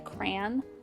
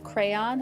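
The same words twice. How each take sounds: First: The A vowel is nasal, Michigan-style. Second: The A vowel is plain, not nasal.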